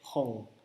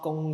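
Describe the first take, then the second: First: The word starts with an h sound. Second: The word starts with a g sound. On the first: The speaker calls it right. "pronounced as hong" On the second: The speaker calls it wrong. "this one is not gong shui"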